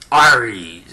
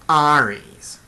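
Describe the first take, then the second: First: The name is said in a tough, hard voice. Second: The name is said in a weak, wimpy voice. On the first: It sounds like a fearsome warrior. "Ares sounds like a mean, tough guy" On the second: It sounds like a weakling. "sounds kind of like a sissy, wimpy kind of name"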